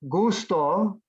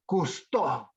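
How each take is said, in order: First: The voice does not rise at the end. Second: The voice rises on the last syllable.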